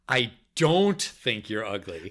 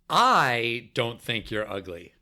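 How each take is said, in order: First: The word "don't" carries the emphasis. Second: The word "I" carries the emphasis. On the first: "then the second time, the second word" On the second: "First, the first word"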